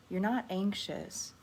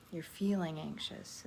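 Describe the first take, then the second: First: Slow, with NOT leaned on in "You're not anxious"; stress on NOT. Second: "feeling" leaned on, "anxious" falling away; stress on FEELING. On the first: Meditation teacher correcting how listeners word feelings, stress on "not". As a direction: put the weight on "not" to deny the label. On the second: Meditation teacher rewording a label as a passing emotion, stress on "feeling". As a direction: put the weight on "feeling" as the better word. Correcting how feelings are worded. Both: Real, not acted.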